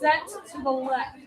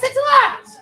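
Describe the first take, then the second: First: It is said in a negative tone. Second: It is said in a positive tone.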